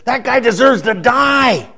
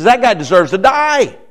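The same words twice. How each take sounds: First: Slow, weighty pronouncement, a hint of David; lightly voiced judging king; solemn king's verdict. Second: Mild mock anger, a little higher and louder; angry verdict. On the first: A preacher voicing King David passing sentence on the thief, slow and grave. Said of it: "he says". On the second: A preacher showing King David's angry judgment, mildly heated. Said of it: "He's angry".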